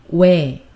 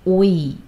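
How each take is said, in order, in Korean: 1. 이 모음은 하나의 미끄러지는 소리예요, wae처럼. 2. 이 모음은 두 소리로 나뉘어요, o-i. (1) "It's 왜" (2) "It is not 오이"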